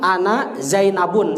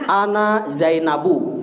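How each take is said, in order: First: The name ends with an added n sound. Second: The name ends on a plain u vowel. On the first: The speaker calls it wrong. "Jangan ana Zainabun, salah" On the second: The speaker calls it right. "Jadi ana Zainabu gitu ya"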